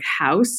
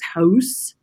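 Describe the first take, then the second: First: The vowel is a plain American diphthong. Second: The vowel is a rounded Canadian-style diphthong.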